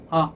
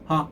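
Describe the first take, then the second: First: A crisp, firmly caught laugh-like onset. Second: The same.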